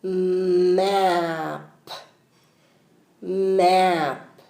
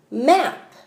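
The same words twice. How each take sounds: First: "Map" stretched slowly, sound by sound; sounding out words. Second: "Map" said quickly and blended; said fast. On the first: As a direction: draw out each sound of "Map". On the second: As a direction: snap "Map" out fast in one go. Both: Shown as a demonstration. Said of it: "do it slowly and then fast".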